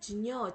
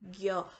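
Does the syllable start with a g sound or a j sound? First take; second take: j sound; g sound. First: It starts with a j sound then n. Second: It starts with a g sound then y. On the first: This is how the letters combine in theory. "합하면 지녀, 지녀처럼 발음이 되어야 될 텐데" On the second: This is how it is said in modern Hindi. "오늘날 힌디어에서는 ... 겨"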